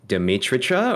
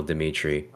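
First: Dimitricha with an extra "cha" on the end, rising; mispronounced name. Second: Said in the usual way. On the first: Shown as a demonstration. Asking how baristas yelled the name, Dimitricha mispronounced with an added "cha". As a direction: say Dimitricha with a questioning lift and an added final syllable. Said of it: "or did they yell Dimitri". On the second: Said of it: "so they yell Dimit".

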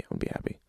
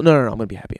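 First: Self-reassuring whisper; whispered to himself. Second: Said in the usual way. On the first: Real, not acted. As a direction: whisper it, unvoiced, to yourself.

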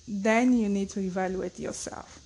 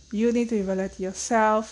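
First: Said in the usual way. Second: "You need to evaluate yourself" said louder, pressed home; emphatic repeat. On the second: Shown as a demonstration. Repeating the advice to parents, louder and emphatic. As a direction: drive the point in again.

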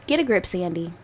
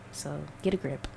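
First: Said in the usual way. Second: Muttered under the breath, much softer; quiet self-talk. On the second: Real, not acted. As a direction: tell yourself off in a low murmur.

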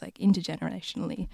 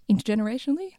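First: Said in the usual way. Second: "Intergenerationally?" asked back with a high rising tune; testing the made-up word "Intergenerationally?" with a lift at the end; "Intergenerationally?" said as an amused question; questioning rise. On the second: Real, not acted. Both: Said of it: "That's a word I just made up".

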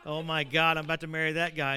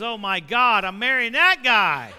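First: A bride's mild horrified groan; mock dismay. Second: Loud, slow, laughing bride's horror; loud mock dismay. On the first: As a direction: voice the bride's mild disappointment, slightly louder. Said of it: "she comes walking up toward me like this". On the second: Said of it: "your wife-to-be goes".

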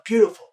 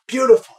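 First: High shouted echo; crowd echo. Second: Chanted, loud, very high call; chanted, belt it out to the crowd; leading the affirmation chant. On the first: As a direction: call it back like the crowd. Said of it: "And they go". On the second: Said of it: "And I go". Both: Retold or imitated.

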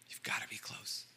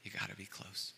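First: Fully unvoiced whisper on close. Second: Very soft, close to the mic; hushed. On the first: Preacher to congregation, whispering the repeat. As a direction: breathe it like a secret. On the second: Preacher to congregation, softly and intimately. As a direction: lean in and say it softly. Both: Shown as a demonstration. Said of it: "in order to hear a whisper".

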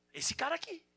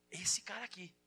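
First: Emphatic high rise. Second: Said in the usual way. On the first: Acted. Pointing at Peter's example.

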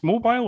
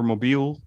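First: "Mobile" said mo-BILE, ending like "bile"; first take: "Mobile" with a long i, mo-bile. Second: "Mobile" said mo-BEEL, ending like "meal"; second take: "Mobile" with an ee sound, mo-beel. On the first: Asking the hosts about the city, "Mobile" with a long i, mo-bile. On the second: Asking the hosts about the city, "Mobile" as mo-beel. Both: Shown as a demonstration. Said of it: "is it pronounced Mobile or Mobile".

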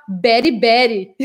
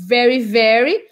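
First: VERY, VERY said as "bery, bery"; B replacing V in each VERY; Indian B for V. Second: VERY, VERY with clear V; standard V. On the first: Retold or imitated. Teacher imitates Indian English, B for V. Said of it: "eles falam o B". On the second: Shown as a demonstration. Teacher shows the original form, clear V. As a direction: lip on teeth opening each VERY. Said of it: "o V do very".

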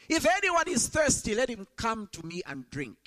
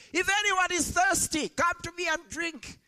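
First: Crying out. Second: Loud shout. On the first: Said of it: "Jesus stood and cried out". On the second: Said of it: "in a loud voice shouts". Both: Retold or imitated.

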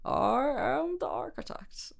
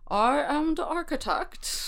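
First: Mock Scottish accent, drawn out slowly. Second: Hint of a slow Scottish accent; lightly voiced slow Scottish accent. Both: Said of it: "how well I can do a Scottish accent".

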